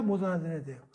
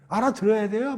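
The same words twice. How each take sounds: First: "못"에 힘을 주고 끝을 내리기; "못"을 찍어 말하고 조용히 내려앉기. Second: "알아들어야"를 높고 크게 올려 묻기; "알아들어야"에 힘을 주고 끝을 올리기. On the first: ("못"을 눌러 말하고 내리는 말투) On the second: ("알아들어야"를 힘주어 묻는 말투) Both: Shown as a demonstration.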